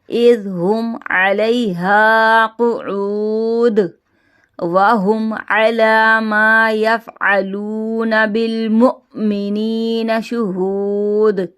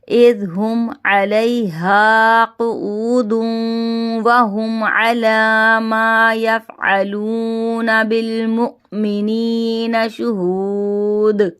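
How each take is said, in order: First: It stops briefly after quood, then continues. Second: It flows on without a pause after quood.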